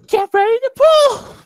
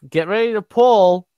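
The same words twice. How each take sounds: First: It is said in an imitation of Oxy. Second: It is said in the speaker's normal voice.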